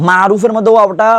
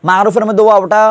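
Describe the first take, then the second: No difference in how they are said.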